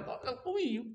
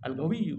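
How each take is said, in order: First: "Al-Qawiyyu" with a q sound, higher and softer; "Al-Qawiyyu" in standard Arabic, lifted and softer; standard qaf. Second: "Al-Qawiyyu" with a hard g, as "al-gawiyu"; "Al-Qawiyyu" said dialect-style with g; dialect G sound. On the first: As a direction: keep the qaf in "Al-Qawiyyu", not g. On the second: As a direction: swap the qaf of "Al-Qawiyyu" for g. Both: Shown as a demonstration. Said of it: "Go-, Qaf beda go".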